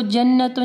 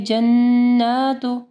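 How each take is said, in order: First: जन्नतु said quickly with a short a; everyday जन्नतु, no stretch on n or vowel; short-vowel mistake. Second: जन्नातु with held humming n and long aa; slow chanted जन्नातु, stretching both n and vowel; long standing zabar. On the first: Teacher shows students what to avoid, short unchanted जन्नतु. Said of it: "इसको जन्नतु नहीं पढ़ना". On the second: Teacher gives students the correct reading, long vowel. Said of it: "खड़ी ज़बर है". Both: Shown as a demonstration.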